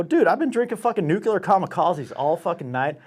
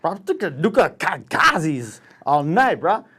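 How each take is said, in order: First: Higher-pitched, clearly worded pleading; retold exasperated complaint; agitated protest. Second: Put-on slow, tongue-tied drunk slur; hammed-up slurred stammer; drunken slurring. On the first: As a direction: plead your drunken case in one run. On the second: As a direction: stumble over the words, hammered. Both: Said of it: "I couldn't even say nuclear kamikaze".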